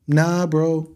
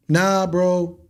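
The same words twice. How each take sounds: The two takes are said the same way.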